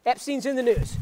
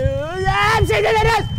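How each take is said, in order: First: Said in the usual way. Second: High, drawn-out agonized scream; slow howl of agony, hammed-up; great pain. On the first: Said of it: "let me try it one more time". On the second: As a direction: scream the words slowly as pain hits. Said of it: "it gives me great pain".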